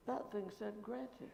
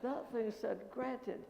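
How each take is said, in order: First: Slow, softer, sinking in; slow dawning thought; slow realization. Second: Slow, rising, fuller; the penny drops, building up; slow growing excitement; dawning excitement. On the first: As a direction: let it dawn on you slowly. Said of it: "I thought". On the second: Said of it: "then I exploded". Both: Retold or imitated.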